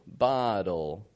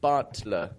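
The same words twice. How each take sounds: First: The T is a soft, quick flap. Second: The T is a crisp, released stop. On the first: The speaker calls it right. "we would make it dull" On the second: The speaker calls it wrong. "instead of bottle kind of thing. You hear how that sounds awkward?"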